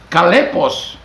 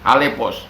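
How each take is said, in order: First: The word begins with a hard k sound. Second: The word begins with a breathy h sound. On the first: The speaker calls it wrong. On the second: The speaker calls it right. "Jadi X itu dibaca H"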